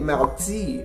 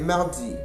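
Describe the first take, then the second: First: It is said with a Canadian French accent. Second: It is said with a Parisian French accent. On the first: "a French-Canadian speaker would say" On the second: "a Parisian would say"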